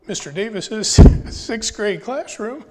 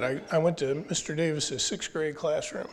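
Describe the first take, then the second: First: Emotional, half laughing, higher and louder; fighting tears with a nervous laugh; choked up. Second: Said in the usual way. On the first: Real, not acted. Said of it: "I don't know why I'm getting emotional". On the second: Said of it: "I'm getting emotional".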